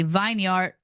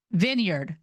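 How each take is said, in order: First: "vineyard" said as vine-yard, long i. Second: "vineyard" said as VIN-yerd, short i. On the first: Reader trying the word from Noah's planting, "vineyard" as vine-yard. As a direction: say "vineyard" like vine plus yard, full second syllable. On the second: Reader correcting herself on the word, "vineyard" as VIN-yerd. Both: Real, not acted. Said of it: "Is it vineyard, vineyard, or vineyard?".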